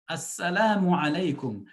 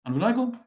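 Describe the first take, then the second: First: The greeting is said in full, clearly articulated. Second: The greeting is mumbled and clipped short. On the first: The speaker means the greeting of peace. The speaker calls it right. "Try to make the effort to say the salam properly" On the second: The speaker does not know what they are saying. The speaker calls it wrong. "You're mumbling something"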